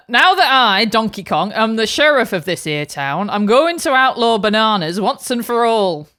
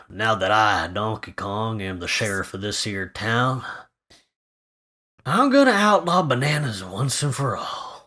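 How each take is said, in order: First: Lightly put-on Lancashire sheriff, a touch louder; a hint of a northern English lawman; Lancashire accent. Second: Gruff sheriff read. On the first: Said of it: "different British accent". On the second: Pretend. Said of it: "just have a go".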